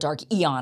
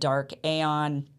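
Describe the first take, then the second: First: The second word begins with an 'ee' sound. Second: The second word begins with an 'ay' sound. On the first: The speaker calls it right. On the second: The speaker calls it wrong.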